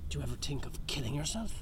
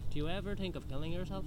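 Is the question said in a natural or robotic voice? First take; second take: natural; robotic. First: The question is said in a natural voice. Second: The question is said in a flat robotic voice.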